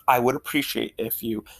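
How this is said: The tone is sincere and assertive. The request is meant genuinely. The speaker calls it right. "Clearly and assertively"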